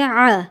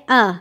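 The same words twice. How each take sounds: First: آ with the throaty ain from the pharynx; آ from the throat, not the chest; ain sound. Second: آ as a plain glottal hamza from the chest; آ voiced from the chest, not the throat; hamza sound. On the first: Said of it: "عین کی آواز ہوتی ہے آ". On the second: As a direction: say آ with a light glottal catch. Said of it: "حمزہ کی آواز ہوتی ہے آ". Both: Shown as a demonstration.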